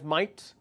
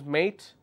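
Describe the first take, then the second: First: The vowel sounds like the vowel in 'might'. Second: The vowel sounds like the vowel in 'day'. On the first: "Australians pronounce mate as might" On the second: "British English is mate"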